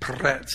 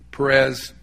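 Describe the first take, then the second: First: The name is said with a forceful, spitting sound. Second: The name is said plainly, without a spitting sound. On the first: The speaker calls it right. "you have to make almost spit" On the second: The speaker calls it wrong. "we would say it that way because we're kind of Latin in our culture"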